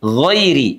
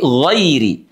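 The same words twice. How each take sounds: No difference in how they are said.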